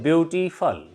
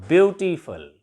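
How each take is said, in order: No difference in how they are said.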